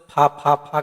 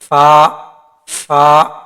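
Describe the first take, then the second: First: The sound is made with both lips together. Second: The sound is made with upper teeth on lower lip. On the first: The speaker calls it wrong. "अक्सर लोग फा फा फा कर दोनों होठ को मिला देते हैं, फा नहीं होगा" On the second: The speaker calls it right. "ऊपर का दांत नीचे का होठ का बीच में रखना है"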